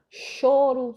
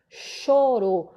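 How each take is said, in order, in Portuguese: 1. A vogal tônica é um ó fechado. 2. A vogal tônica é um ó fechado.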